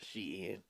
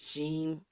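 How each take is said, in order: First: "Shein" as two syllables, SHE-in; official pronunciation. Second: "Sheen" as one syllable, rhyming with green; alternative pronunciation. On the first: Passing on the brand's Twitter correction, "Shein" said SHE-in. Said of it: "said it's pronounced Shein". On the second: Explaining how some people say the brand, "Sheen" in one syllable. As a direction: say "Sheen" in a single long-ee syllable. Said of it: "Some people pronounce it Sheen". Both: Shown as a demonstration.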